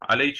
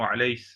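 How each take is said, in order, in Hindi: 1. शब्द ch ध्वनि से खत्म होता है। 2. शब्द s ध्वनि से खत्म होता है। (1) "जो काफ और सीन के बीच में हो" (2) "सीन में बदल दिया"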